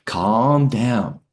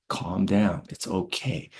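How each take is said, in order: First: Firm soothing. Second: Softer soothing. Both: Retold or imitated. Sergeant soothing panicked soldier.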